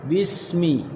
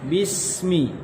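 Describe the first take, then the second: No difference in how they are said.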